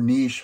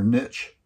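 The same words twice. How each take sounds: First: Niche rhyming with leash, long ee; niche as "neesh". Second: Niche rhyming with rich, short i and ch; niche as "nitch". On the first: Coach offering the other pronunciation, niche said "neesh". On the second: Coach naming the thing to determine, niche said "nitch". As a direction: say niche with a "tch" ending. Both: Shown as a demonstration. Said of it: "however you pronounce it".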